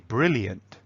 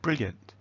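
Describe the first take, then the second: First: The word is said with three syllables. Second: The word is said with two syllables. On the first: "which is three" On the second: "which is two"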